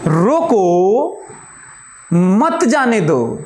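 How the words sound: The pause comes right after 'roko'.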